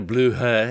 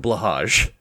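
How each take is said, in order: First: The name is said like 'bloo-high'. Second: The name is said like 'blah-hahzh'. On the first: This is the name others use. "everybody else can get a blue high at IKEA" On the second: This is the speaker's personal name for it. "Mine is a Blahage"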